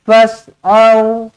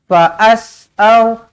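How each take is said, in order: First: The first part is said as one syllable. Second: An extra vowel is sounded after the first syllable. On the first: The speaker calls it right. "Fas je" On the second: The speaker calls it wrong. "tak payah"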